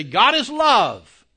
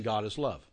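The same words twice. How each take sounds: First: "is" stretched out, much higher and louder, slow; stress on IS. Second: Said in the usual way. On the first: Shown as a demonstration. Preacher showing his class a strong stress on "is". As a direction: lean hard on "is" and draw it out. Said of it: "mean something different than just saying". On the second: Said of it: "than just saying".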